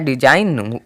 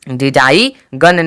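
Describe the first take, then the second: First: No g sound is pronounced before the n. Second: A hard g sound is pronounced before the n. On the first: The speaker calls it right. "जी का कोई भी sound नहीं आया है" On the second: The speaker calls it wrong. "डिजाई गन नहीं use हुआ है"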